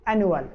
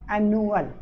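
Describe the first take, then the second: First: Said in the usual way. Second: एनुअल said slightly drawn out, syllable by syllable; broken into syllables. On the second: Shown as a demonstration. Teacher showing pupils the syllabic division, एनुअल said in separate syllables. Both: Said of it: "syllabic division है".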